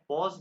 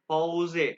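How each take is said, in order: First: The word ends on the s sound. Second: The word ends with an extra vowel sound. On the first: "English का बड़ा पॉज" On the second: "ई को ए कहते हैं"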